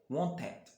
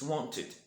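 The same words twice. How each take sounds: First: The ending uses an 'eh' vowel before d. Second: The ending uses a short 'ih' vowel before d. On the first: The speaker calls it wrong. "not wanted" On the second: The speaker calls it right. "The actual pronunciation is id"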